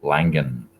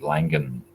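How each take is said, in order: First: The G is pronounced as a hard sound. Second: The G is pronounced as a hard sound.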